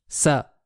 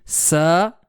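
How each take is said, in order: First: The vowel is kept short. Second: The vowel is drawn out long. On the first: The speaker calls it right. "tel que je viens de le prononcer" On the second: The speaker calls it wrong. "on est en train d'ajouter quelque chose"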